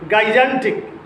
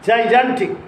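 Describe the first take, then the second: First: The word begins with a hard G. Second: The word begins with a J sound. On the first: The speaker calls it wrong. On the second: The speaker calls it right.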